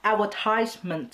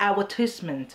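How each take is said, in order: First: "advertisement" as ad-ver-TIZE-ment; American-style TIZE in "advertisement". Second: "advertisement" with tis instead of tize; British-style short tis in "advertisement"; attempted British "advertisement". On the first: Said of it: "advertisement คืออเมริกัน". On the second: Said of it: "คนอังกฤษจะพูดว่า". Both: Shown as a demonstration.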